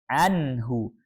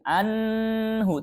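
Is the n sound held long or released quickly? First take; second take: released quickly; held long. First: The n is clear and released quickly. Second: The n is held before the next sound. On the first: The speaker calls it right. "kita harus membaca nunnya dengan jelas" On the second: The speaker calls it wrong. "tidak membaca seperti ini"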